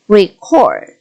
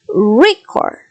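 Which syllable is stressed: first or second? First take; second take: second; first. First: The stress is on the second syllable. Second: The stress is on the first syllable. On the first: It is used as a verb. "If you want it to be a verb, the stress is on the second syllable" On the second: It is used as a noun. "for a noun, ... The stress is on the first syllable"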